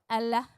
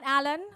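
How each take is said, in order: First: The name sounds like 'Allah'. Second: The name sounds like 'Alan'. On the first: The speaker calls it right. "now we know how to pronounce it" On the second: The speaker calls it wrong. "Not Alan"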